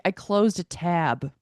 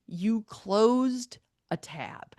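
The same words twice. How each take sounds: First: Slow, slightly louder imitated admission; retold matter-of-fact admission. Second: Drawn-out, higher-pitched disbelief; incredulous echo. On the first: Imitating his answer about the scream, slow matter-of-fact admission. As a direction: own up slowly as if it were nothing. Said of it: "He's like". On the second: Retold or imitated. Repeating his excuse back to him, drawn-out incredulous echo. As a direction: repeat it back very slowly, acting dumbfounded.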